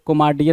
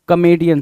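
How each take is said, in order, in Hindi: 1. बीच में 'mar' जैसी आवाज़ है, r के साथ। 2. बीच में 'me' जैसी आवाज़ है, बिना r के। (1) "कोमार्डियन नहीं"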